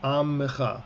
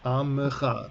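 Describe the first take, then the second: No difference in how they are said.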